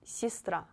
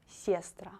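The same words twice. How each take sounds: First: The first vowel sounds like ee. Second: The first vowel sounds like eh. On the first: The speaker calls it right. "If this letter is not stressed, you pronounce it like I" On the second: The speaker calls it wrong. "not сестра"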